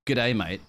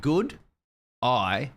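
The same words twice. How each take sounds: First: "Good day, mate" said as a slurred Aussie greeting; Australian greeting; Australian accent. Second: "Good eye" run together fast like "g'day"; fast Australian "Good eye"; Australian accent. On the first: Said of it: "you wanna say". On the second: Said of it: "think M eight together". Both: Shown as a demonstration.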